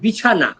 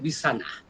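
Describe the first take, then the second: First: The middle consonant is a clear 'ch' sound. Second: The middle consonant is softened toward an 's'.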